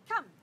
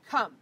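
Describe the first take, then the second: First: It is said in a friendly, upbeat way. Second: It is said loudly and demandingly. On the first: It is an invitation. The speaker calls it right. "by being friendly and by being up and by being inviting" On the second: It is an order. The speaker calls it wrong. "in a very loud, you know, demanding way"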